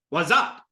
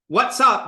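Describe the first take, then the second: First: The words are run together and reduced. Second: The words are said fully and separately.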